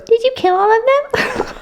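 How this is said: It is said in a mocking, exaggerated way.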